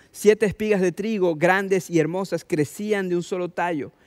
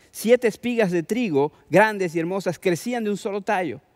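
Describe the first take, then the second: Both takes have the same delivery.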